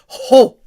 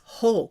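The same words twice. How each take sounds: First: It is said loudly and low. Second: It is said very quietly.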